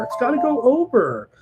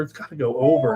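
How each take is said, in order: First: Pitched well up, falling at the end; emphatic repeat. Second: Said in the usual way. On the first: Shown as a demonstration. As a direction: repeat the call in a much higher voice.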